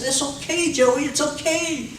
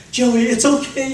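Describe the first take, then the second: First: Put-on high, gentle hushing of a baby; soothing baby. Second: High, firmer comforting coo; reassuring baby. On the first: Parent soothing a screaming baby. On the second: Retold or imitated. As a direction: reassure him brightly and clearly. Parent soothing baby after cleanup.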